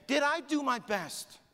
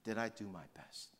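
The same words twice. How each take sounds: First: High, drawn-out re-enacted cry; slow, high impassioned yell. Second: Hushed, lowered, searching question; reflective question. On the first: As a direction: cry the question out slowly. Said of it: "And then he said it again". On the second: Retold or imitated. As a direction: ask it quietly of yourself. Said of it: "have you asked that question".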